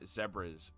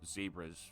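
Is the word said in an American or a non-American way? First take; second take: non-American; American. First: The word is said in a non-American way. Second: The word is said in an American way.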